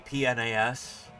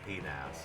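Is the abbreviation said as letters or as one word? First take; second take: letters; one word. First: It is spelled out letter by letter. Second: It is said as one single word. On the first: It is the polite way to say it. "In polite company, you might say" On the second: It is the cheeky insider way to say it. "but all the cool kids say"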